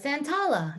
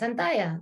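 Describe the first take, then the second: First: The double L sounds like an L. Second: The double L sounds like a Y. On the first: It is a way of saying the name to fit in. "But in school, you pronounce it a certain way" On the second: It is the Spanish way of saying the name. "Double L in Spanish is like a Y"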